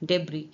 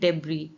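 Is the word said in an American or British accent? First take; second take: British; British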